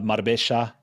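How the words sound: The double L sounds like sh. It is Argentine Spanish. "that j in Argentine Spanish turns to a sh"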